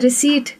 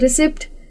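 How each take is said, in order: First: The word is said without a p sound. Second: The word is said with a p sound. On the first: The speaker calls it right. "बोलना था रिसीट" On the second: The speaker calls it wrong. "बोल दिए रिसिप्ट"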